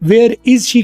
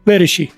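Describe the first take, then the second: First: Each word is said separately with breaks. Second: The words run together without any breaks. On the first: The speaker calls it wrong. "की बजाय" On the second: The speaker calls it right. "मिला के बोलना है"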